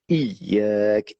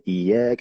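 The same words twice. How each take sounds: First: The y sound is held long and doubled. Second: The y sound is short and single. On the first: The speaker calls it right. "on appuie bien aussi sur le Ya de Iyak" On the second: The speaker calls it wrong. "si on n'appuie pas sur le Ya de Iyak"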